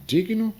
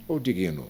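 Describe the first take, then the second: First: "digno" said DIG-no, two beats; "digno" with g and n together, stressed up front. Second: "digno" as di-GUI-no; three-syllable "digno", leaning on GUI; mispronounced digno with added vowel. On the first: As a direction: punch the first vowel of "digno". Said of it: "tem que dar força no i". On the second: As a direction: add a stressed i after the g in "digno". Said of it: "não digno". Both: Shown as a demonstration.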